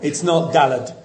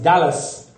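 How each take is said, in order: First: The word ends with a t sound. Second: The word ends with an s sound. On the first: "It's not Dalet"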